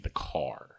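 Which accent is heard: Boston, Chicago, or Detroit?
Detroit. It is said in a Detroit accent.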